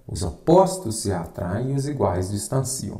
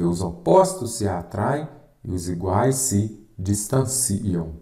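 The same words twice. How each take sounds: First: Said in the usual way. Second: Slow dictation with a break before "distanciam", stretched out. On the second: Shown as a demonstration. Teacher giving students a rule to write down, slow dictation. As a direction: dictate it in chunks, drawing out "distanciam". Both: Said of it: "você vai escrever".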